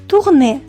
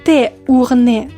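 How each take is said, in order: First: It starts with a plain short t sound. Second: It starts with the spoken letter name 'té'. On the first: The speaker calls it right. "mais tourner" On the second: The speaker calls it wrong. "vous ne dites pas T ourner"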